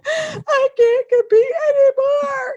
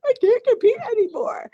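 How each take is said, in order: First: High, slow tearful confession; crying. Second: High, tearful repeat of the confession. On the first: Wife tells husband through tears, high and slow. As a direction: break down as you say it. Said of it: "My husband sees me crying". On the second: Retelling her breakdown to the listener, high and tearful. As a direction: say it like you are breaking down. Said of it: "I just had to break down". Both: Retold or imitated.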